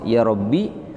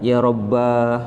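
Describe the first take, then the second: First: The word ends in a short i vowel. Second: The word ends in a long a vowel. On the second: "atau dipanjangkan"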